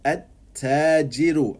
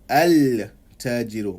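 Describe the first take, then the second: First: The L is dropped; the word starts with doubled T. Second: The L is pronounced before the T sound. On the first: The speaker calls it right. "It becomes at-tajiru" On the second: The speaker calls it wrong. "and not al-tajiru"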